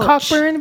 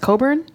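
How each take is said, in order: First: The k sound is pronounced in the middle. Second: The k sound is silent in the middle. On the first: "it's spelled Cockburn" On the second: "it's pronounced Coburn"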